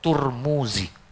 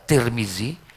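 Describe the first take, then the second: First: The name is said with 'u' vowels. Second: The name is said with 'i' vowels. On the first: "bisa dibaca Turmuzi" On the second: "bisa dibaca Tirmizi"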